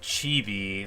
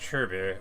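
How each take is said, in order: First: It sounds like the Japanese word for cute. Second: It sounds unlike the Japanese word for cute. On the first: The speaker calls it wrong. "like I always say" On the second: The speaker calls it right. "It's more like chirby or something like that"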